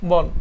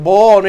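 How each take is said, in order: First: বন said with a rounded "o", as "bon"; correct pronunciation. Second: বন said with an open "aw" vowel, as "bawn"; mistaken pronunciation. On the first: Shown as a demonstration. Teacher shows students correct বন, rounded "bon". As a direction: round the vowel in বন to a close "o". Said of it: "এভাবে হচ্ছে সঠিক উচ্চারণ". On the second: Retold or imitated. Teacher voices students' likely mistake, বন with open "aw". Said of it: "বন উচ্চারণ বনের মতোই হবে".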